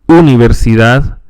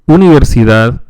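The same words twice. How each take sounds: No difference in how they are said.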